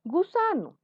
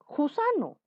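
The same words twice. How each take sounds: First: Gusano said with a soft g, as in go; gusano, gentle voiced g. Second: Gusano said as jusano, with a throaty j; gusano, start with a rough j in the throat; wrong harsh j. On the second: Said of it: "Tú no dices jato". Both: Shown as a demonstration.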